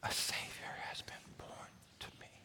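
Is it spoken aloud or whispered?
whispered. It is whispered without full voice.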